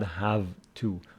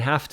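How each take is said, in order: First: The word have ends in a v sound. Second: The word have ends in an f sound. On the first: The speaker calls it wrong. "It is not have to" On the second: The speaker calls it right. "This v is somehow pronounced f"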